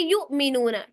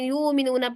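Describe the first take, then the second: First: There is a sharp glottal catch before mi. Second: The sounds run smoothly with no glottal catch. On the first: The speaker calls it right. "हमजा अगर साकिन हो ना इस तरीके से आए तो फिर से झटका देते हैं" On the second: The speaker calls it wrong. "कुछ लोग ना हमजा के ऊपर झटका नहीं देते"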